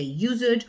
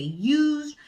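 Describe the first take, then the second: First: Used said as two syllables, yoo-zid; used with an extra id syllable; wrong two syllables. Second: Used said as one syllable, yooz'd; correct one syllable. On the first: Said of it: "they say used". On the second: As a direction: say used in one beat with the d blended. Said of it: "they have to say used". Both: Shown as a demonstration.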